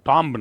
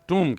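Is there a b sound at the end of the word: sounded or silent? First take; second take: sounded; silent. First: The word ends with an audible b sound. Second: The word ends in m with no b sound. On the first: The speaker calls it wrong. "टॉम्ब नहीं" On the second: The speaker calls it right. "टूम कहते हैं"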